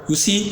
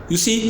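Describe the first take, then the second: No difference in how they are said.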